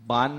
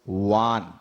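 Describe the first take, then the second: First: The syllable starts with a b sound. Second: The syllable starts with a v sound. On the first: The speaker calls it wrong. "बान नहीं" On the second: The speaker calls it right. "वा का उच्चारण करना, बा का नहीं"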